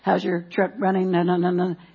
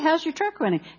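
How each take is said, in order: First: It is said flatly, with little pitch variation. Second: It is said lively, with natural pitch variation. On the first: The speaker calls it wrong. "I don't go" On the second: The speaker calls it right. "You say, hey"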